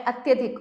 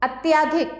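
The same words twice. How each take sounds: First: Said in the usual way. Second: अत्याधिक with a long "tyaa", pitched high; अत्याधिक said "at-YAA-dhik"; wrong long vowel. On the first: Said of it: "अत्यधिक होता है". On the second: Shown as a demonstration. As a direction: lift and lengthen the middle of अत्याधिक. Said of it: "अत्याधिक नहीं होता है".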